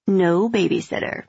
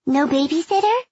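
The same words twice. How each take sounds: First: Said in the usual way. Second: Put-on high, eager child voice; a hopeful little kid asking; little girl voice. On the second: A narrator's reading.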